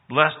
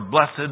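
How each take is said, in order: First: The word is said as one syllable. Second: The word is said as two syllables.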